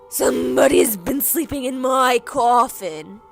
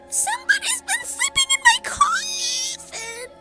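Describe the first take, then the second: First: It is said in a big growly voice. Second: It is said in a screeching voice.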